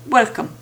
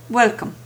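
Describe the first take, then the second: No difference in how they are said.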